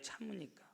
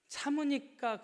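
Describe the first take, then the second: First: The word dropped to a hush; quiet repeat of 참으니까; soft echo. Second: 참으니까 thrown out loud and high; preacher's rising cry of 참으니까; loud, high repeat. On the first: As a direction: say it again softly, almost to yourself. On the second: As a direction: hammer the word 참으니까 home. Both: Acted. Echoed key word.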